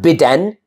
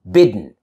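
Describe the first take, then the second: First: A clear vowel is heard before the N. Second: The D moves straight into N, no vowel. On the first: The speaker calls it wrong. "Not bidden" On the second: The speaker calls it right.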